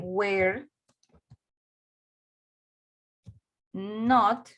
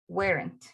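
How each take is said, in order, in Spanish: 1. Se dice como dos palabras completas y separadas. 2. Se dice como una sola palabra contraída. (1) "Puedo decir were not" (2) "también puedo decir en forma corta"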